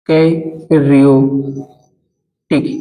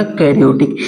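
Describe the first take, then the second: First: karyotic split up with long gaps; karyotic drawn out at writing speed; slow dictation. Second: Said in the usual way. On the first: Shown as a demonstration. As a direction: dictate karyotic very slowly, syllable by syllable. Teacher dictating term for notes.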